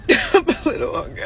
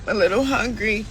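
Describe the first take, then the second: First: Laughing through the words; half-laughing, breathy with a giggle. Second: Said in the usual way. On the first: Real, not acted.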